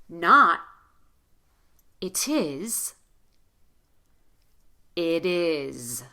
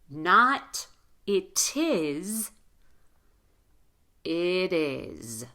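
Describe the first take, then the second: No difference in how they are said.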